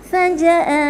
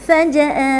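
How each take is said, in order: The two takes are said the same way.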